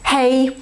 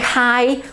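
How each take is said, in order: First: The vowel sounds like the one in 'hey'. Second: The vowel sounds like the one in 'high'. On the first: The speaker calls it right. "ja się trzymam poprawnej wymowy" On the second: The speaker calls it wrong. "nie haj"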